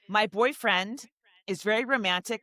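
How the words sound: The voice rises at the end of the phrase.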